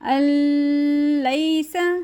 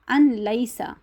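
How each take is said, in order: First: The n merges into l with a nasal hum. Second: The n is pronounced separately before the l. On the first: "ऐसे भी हमने नहीं पढ़ना क्योंकि हमने गुन्ना नहीं करना" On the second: "जो गलत तरीका है वो ये है"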